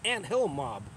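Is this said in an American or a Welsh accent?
American. It is said in an American accent.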